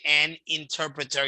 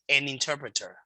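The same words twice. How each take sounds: First: The word 'an' is said apart from 'interpreter'. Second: The n of 'an' runs into 'interpreter'. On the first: The speaker calls it wrong. "Instead of saying an interpreter" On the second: The speaker calls it right. "you're going to join the end with the I"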